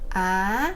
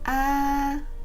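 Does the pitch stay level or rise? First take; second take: rising; level. First: The pitch rises from low to high. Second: The pitch stays high and level. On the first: "The second tone is called the rising tone. The sound is from low to high" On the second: "That is the sound of the first tone"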